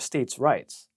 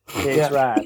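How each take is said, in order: First: The word 'rights' keeps its full 'eye' vowel. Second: The word 'rights' is flattened to sound like 'rats'. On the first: "you didn't say it right" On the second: "You're supposed to say states' rats"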